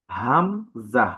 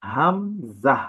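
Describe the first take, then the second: First: হামজাহ very slow with a falling finish; slow falling model of হামজাহ; slow letter name, falling. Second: হামজাহ drawn out slowly, ending on a rise; slow model of হামজাহ; slow letter name. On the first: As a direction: repeat হামজাহ slowly to close it off. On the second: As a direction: spell out হামজাহ slowly for learners. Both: Shown as a demonstration. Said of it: "এই হরফটির নাম হচ্ছে".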